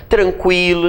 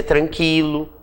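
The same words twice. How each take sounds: First: Said in the usual way. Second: "tranquilo" said "tran-kee-lo", with a silent u; u mudo. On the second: Shown as a demonstration. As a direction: mispronounce "tranquilo" with k straight into i, no w sound. ("tranquilo" com o u mudo, soando "tran-qui-lo" como em "quilo") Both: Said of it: "ninguém vai dizer tranquilo".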